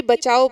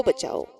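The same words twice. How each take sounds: First: A louder call for help; first cry for help, pushed out louder. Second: Help call dropping softer and lower; second cry for help fading out. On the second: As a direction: let the second cry die away. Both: A narrator's reading. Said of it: "जोर जोर से चीखने लगता है".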